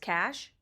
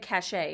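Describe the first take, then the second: First: The word is said with one syllable. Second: The word is said with two syllables. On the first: The speaker calls it right. "it's cash?" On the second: The speaker calls it wrong. "I said cachet"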